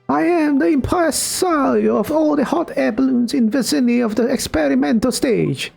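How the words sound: It is said in an Italian accent.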